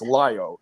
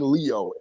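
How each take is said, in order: First: The first vowel sounds like 'eye'. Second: The first vowel sounds like 'ee'. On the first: The speaker calls it right. "it's Lio" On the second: The speaker calls it wrong. "Stop saying Leo"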